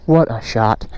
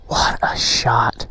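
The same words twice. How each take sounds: First: Said in the usual way. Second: Slow hushed whisper; awed whisper. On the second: Real, not acted. Vlogger admiring the shot for viewers, slow whisper. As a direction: whisper it slowly in awe. Awed at the view while filming.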